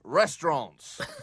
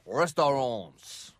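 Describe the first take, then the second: First: It is said with an English accent. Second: It is said with a French accent.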